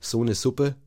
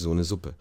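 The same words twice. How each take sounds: First: The S in Suppe is voiceless, southern German style. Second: The S in Suppe is voiced, standard German style.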